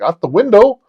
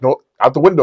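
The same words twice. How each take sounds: First: High, loud rising question; incredulous echo. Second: Insistent correction. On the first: Man ordered out by his lover, high incredulous echo. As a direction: repeat it in mock alarm. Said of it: "I'm like". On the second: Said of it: "She's like". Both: Retold or imitated.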